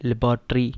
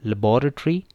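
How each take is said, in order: First: लेबोरेटरी as lab-ra-tory, stress on lab; common American pronunciation. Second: लेबोरेटरी as la-BOR-a-tory, stress on bor; British pronunciation. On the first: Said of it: "जो pronunciation common है". (लेबोरेटरी आम उच्चारण, लैब पर ज़ोर) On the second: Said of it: "British में लेबोरेटरी है". (लेबोरेटरी British उच्चारण, बॉ पर ज़ोर) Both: Shown as a demonstration.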